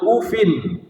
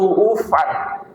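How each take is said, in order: First: The word ends in a plain i vowel. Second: The word ends in a plain a vowel. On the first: "dengan kasrah tanpa tanwin" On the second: "dengan memfathahkan tanpa ada tanwinnya"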